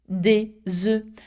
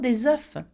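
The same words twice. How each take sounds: First: The noun is said with the changed plural sound. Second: The noun is said with the singular sound. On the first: The speaker calls it right. "if you want to talk about more than one, then the sound changes completely" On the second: The speaker calls it wrong. "and not"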